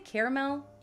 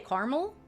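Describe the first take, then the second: First: The middle vowel is clearly pronounced. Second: The middle vowel is dropped. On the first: "which I guess in a way is pronouncing the A" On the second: "some people say"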